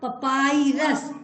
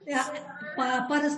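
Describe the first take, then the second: First: It has an 'ai' vowel in the middle. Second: It has no 'ai' vowel in the middle. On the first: The speaker calls it right. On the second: The speaker calls it wrong. "पापरस नहीं बेटा"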